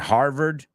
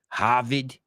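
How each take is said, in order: First: It is said in a standard American accent. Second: It is said in a Boston accent.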